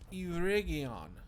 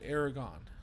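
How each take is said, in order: First: The name ends with a 'gee-on' sound. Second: The name ends with a 'gon' sound. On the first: The speaker calls it right. "But it's Eregion" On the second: The speaker calls it wrong. "I've always called that Aragon"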